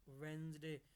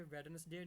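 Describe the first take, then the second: First: "वेंसडे" as two syllables, wenz-day, d silent; correct pronunciation. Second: "वेडनेसडे" said in full as wed-nes-day, every syllable sounded; wrong pronunciation. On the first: Teacher models the right way to say Wednesday, d silent and s like z. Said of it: "ये होता है वेंसडे". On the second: Teacher shows students the wrong way to say Wednesday, sounding every syllable. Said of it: "ये वेडनेसडे नहीं होता". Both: Shown as a demonstration.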